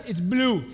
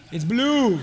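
First: Put-on softer, lower, matter-of-fact kid reply; three-year-old calmly naming the monster's colour; quiet toddler answer. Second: Chuckling as he repeats it; father amused by his son's answer; laughing. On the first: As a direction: say it like a sure little boy. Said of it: "You know what he says?". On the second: Real, not acted. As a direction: laugh through the words.

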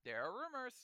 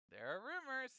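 First: Teasing hint. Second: Teasing, more knowing. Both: Acted.

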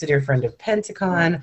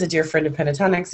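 First: "Pentacon" said carefully as the fix; corrected to "Pentacon", each syllable clear; name corrected. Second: "[name]" said by mistake, quickly; the slip "[name]", then corrected; name slip. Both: Real, not acted.

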